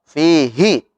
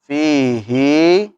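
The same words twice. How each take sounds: First: The final vowel is kept short. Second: The final vowel is drawn out long. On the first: This follows the normal rule. "fihi harusnya pendek" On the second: This verse is an exception to the rule. "panjang ini kan?"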